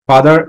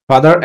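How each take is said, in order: No difference in how they are said.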